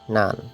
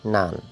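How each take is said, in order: The two takes are said the same way.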